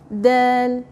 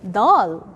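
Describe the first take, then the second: First: The word is said soft and light. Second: The word is said hard and heavy. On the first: The speaker calls it right. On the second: The speaker calls it wrong. "Never ever say dal"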